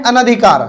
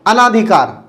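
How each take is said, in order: First: अनधिकार with a short "na" in the second syllable; correct pronunciation. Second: अनाधिकार with a long "naa" in the second syllable; common mispronunciation. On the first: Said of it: "तो उच्चारण कैसे करना है". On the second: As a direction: stretch the ना in अनाधिकार. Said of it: "ज़्यादातर लोग इसका उच्चारण भी ऐसे ही करते हैं". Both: Shown as a demonstration.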